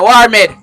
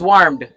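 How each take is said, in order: First: The word is split into two separate syllables. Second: The word is said as one single syllable. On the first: The speaker calls it wrong. "You say war med" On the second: The speaker calls it right. "The word is warmed"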